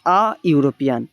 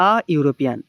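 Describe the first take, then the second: First: আ ইউরোপিয়ান said with a short unstressed আ before the "you" sound; আ ইউরোপিয়ান with a short, light আ; article a before a "you" sound. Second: আ ইউরোপিয়ান said again, calm and low; article a repeated. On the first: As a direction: say আ ইউরোপিয়ান to show the article is a, not an. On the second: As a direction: repeat আ ইউরোপিয়ান to confirm the answer. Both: Shown as a demonstration. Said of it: "তার আগে হবে হচ্ছে option D, এ".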